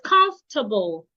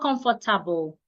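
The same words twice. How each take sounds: First: The O and R are left silent. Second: The O and R are pronounced fully. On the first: The speaker calls it right. "It's comfortable. The O and R are silent" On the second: The speaker calls it wrong. "It's not comfortable"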